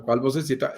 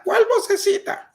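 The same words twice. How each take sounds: First: Said in the usual way. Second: ¿Cuál vocecita? con un salto muy agudo y fuerte; asombro exagerado. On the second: Pretend. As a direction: finge no entender, con un chillido de sorpresa. Imita la vocecita interior. (pregunta incrédula, muy aguda)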